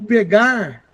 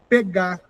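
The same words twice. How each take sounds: First: The final r sound is pronounced. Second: The final r sound is dropped.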